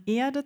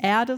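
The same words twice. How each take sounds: First: "Erde" with long closed e, r dropped; crisp stage "Erde", long clean e; crisp stage german. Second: "Erde" with a vocalic r, Eahde; everyday Erde. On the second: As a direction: soften the r in "Erde". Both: Shown as a demonstration. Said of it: "der Endgegner in meiner Ausbildung".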